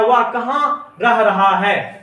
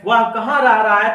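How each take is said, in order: First: Slow, drawn-out words, dictating; slow dictation. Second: Said in the usual way. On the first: Shown as a demonstration. Teacher reading the third sentence to students, slowly. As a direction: read it out slowly so they can write it down. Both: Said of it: "अब देखिए तीसरा sentence दिया है".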